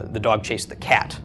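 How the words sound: The word cat is stressed. It was the cat, not something else, that got chased. "by emphasizing cat"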